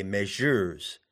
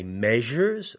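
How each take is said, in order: First: MEASURES wrongly stressed on the second syllable, mea-SURES. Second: MEASURES stressed on the first syllable, MEA-sures. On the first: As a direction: shift the weight to the end of "measures". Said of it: "or do you say measures". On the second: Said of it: "The word measures is trochaic". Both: Shown as a demonstration.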